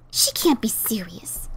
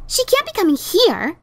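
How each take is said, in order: First: Slow, low, stunned whisper; shocked whisper. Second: Said in the usual way. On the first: Acted. Ditzy stunned by her sister's letter, whispering slowly. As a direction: breathe it out in disbelief.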